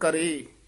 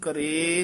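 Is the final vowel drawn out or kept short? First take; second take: short; drawn out. First: The final vowel is kept short. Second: The final vowel is drawn out long. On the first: The speaker calls it right. "ਇਹ ਲਮਕਾਉਣਾ ਨਹੀਂ" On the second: The speaker calls it wrong. "ਕਰੇ ਨਹੀਂ ਕਹਿਣਾ"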